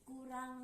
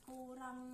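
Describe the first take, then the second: No difference in how they are said.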